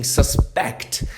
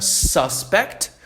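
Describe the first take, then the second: First: Suspect with the stress on the last syllable, sus-PECT; stress on SPECT. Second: Suspect with the stress on the first syllable, SUS-pect. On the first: Teacher to class, showing sus-PECT stress. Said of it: "colocando ênfase no final da palavra". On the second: Teacher to class, showing SUS-pect stress. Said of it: "eu posso falar essa palavra suspect". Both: Shown as a demonstration.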